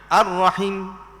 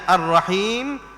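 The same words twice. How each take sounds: First: The vowel in the last syllable is cut short. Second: The vowel in the last syllable is held long. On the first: It means the womb. The speaker calls it wrong. "kalau kita baca Ar-Rahim tanpa ya" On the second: It means the Most Merciful. The speaker calls it right. "kalau Ar-Rahim dengan ya"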